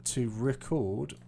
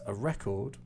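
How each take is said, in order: First: To record said re-CORD, slow with a rise; stress on second syllable. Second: A record said REC-ord, second syllable swallowed; stress on first syllable. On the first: Teacher explaining word stress, stressing the end of record. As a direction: put the weight on the end of record. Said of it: "I put more stress here". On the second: Teacher explaining word stress, stressing the start of record. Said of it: "this sound is kind of swallowed". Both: Shown as a demonstration.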